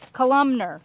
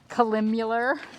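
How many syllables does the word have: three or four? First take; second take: three; four. First: The word has three syllables without the extra sound. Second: The word has four syllables with an extra sound. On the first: The speaker calls it right. "the proper pronunciation" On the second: The speaker calls it wrong. "my made-up word"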